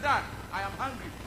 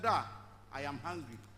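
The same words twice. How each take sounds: First: The phrase is said at a normal pace. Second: The phrase is said slowly and deliberately.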